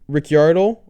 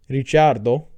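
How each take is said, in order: First: The name is said with an English pronunciation. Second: The name is said with an Italian pronunciation. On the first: "nobody pronounces it like that" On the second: "as his name is actually pronounced because he's Italian"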